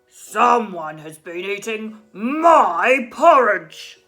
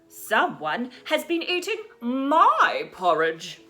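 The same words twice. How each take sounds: First: It is said in a big, cross voice. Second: It is said in a middle-sized voice.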